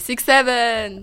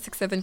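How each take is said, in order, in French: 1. Il est dit avec une intonation vive et marquée. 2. Il est dit de façon monotone, sans intonation marquée. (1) "Il faut bien donner une intonation" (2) "vous n'allez pas dire 6-7 comme ça"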